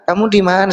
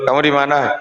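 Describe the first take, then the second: First: It is said in a warm, affectionate tone. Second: It is said in a harsh, interrogating tone. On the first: The caller is welcoming and glad to hear from him. The speaker calls it right. "dengan nada tonasi yang menggairahkan" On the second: The caller is checking up on him like an officer. The speaker calls it wrong. "udah kayak satpol pp tuh"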